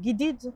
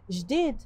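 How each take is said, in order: First: The word begins with a hard g sound. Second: The word begins with a soft j sound. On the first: This is the Egyptian form of the word. "en égyptien" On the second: This is the Tunisian form of the word. "nouveau en tunisien"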